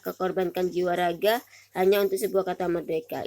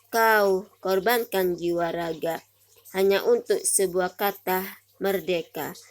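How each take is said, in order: First: The line is read without pauses inside. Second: The line is read with pauses inside. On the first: "ini adalah sebelum diberi tanda jeda, tidak ada tanda jedanya ya" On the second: "setelah diberi tanda jeda"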